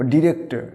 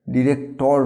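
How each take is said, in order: First: "ডিরেক্টর" ending in weak -tə; silent final r. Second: "ডিরেক্টর" with full -tor, r sounded; wrong pronunciation. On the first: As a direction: say "ডিরেক্টর" as di-rek-tə. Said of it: "শেষের রটাকে silent করতে হবে". ("ডিরেক্টর" শেষের র নীরব, ডিরেক্টা) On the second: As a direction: say "ডিরেক্টর" slowly as di-rek-tor. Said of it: "ডিরেক্টর নয়". ("ডিরেক্টর" ভুল উচ্চারণে, শেষে টোর) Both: Shown as a demonstration.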